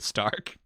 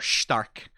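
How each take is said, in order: First: The name has an English pronunciation. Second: The name has a German pronunciation.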